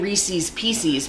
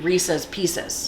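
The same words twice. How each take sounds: First: The first word rhymes with the second word. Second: The first word does not rhyme with the second. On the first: The speaker calls it wrong. "people say Reese's Pieces because it sounds like it's supposed to rhyme" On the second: The speaker calls it right. "it's supposed to be Reese's Pieces"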